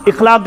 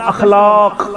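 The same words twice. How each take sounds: First: اخلاق said with an i at the start, "ikhlaq"; wrong form of اخلاق, opening on "ikh"; mispronunciation demo. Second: اخلاق said with an a at the start, "akhlaaq"; careful اخلاق with first vowel a and a long second syllable; correct pronunciation demo. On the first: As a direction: say اخلاق as "ikhlaq", first vowel i. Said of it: "اخلاق چھُنہٕ صحیح تلفظ". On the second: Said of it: "اخلاق گژھِ نہٕ وَنُن". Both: Shown as a demonstration.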